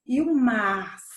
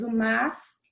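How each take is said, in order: First: "mas" drawn out slowly with a full, long vowel; stressed second form. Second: Said in the usual way. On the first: Shown as a demonstration. Teacher contrasting two look-alike words, "mas" drawn out long. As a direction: stretch "mas" to set it apart. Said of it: "de mal". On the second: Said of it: "nós temos o mas e o mas".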